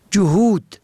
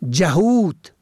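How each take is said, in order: First: جهود said "johud"; ضمه on first letter. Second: جهود said "jahud"; فتحه on first letter. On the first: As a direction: say جهود with a short o after j. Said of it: "به ضم اول". (جهود با ضمهٔ جیم: جُهود) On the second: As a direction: say جهود with a short a after j. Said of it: "به فتح اول". (جهود با فتحهٔ جیم: جَهود) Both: Shown as a demonstration.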